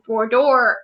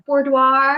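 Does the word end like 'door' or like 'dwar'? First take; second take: door; dwar. First: The word ends with a sound like 'door'. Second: The word ends with a sound like 'dwar'. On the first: The speaker calls it wrong. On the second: The speaker calls it right.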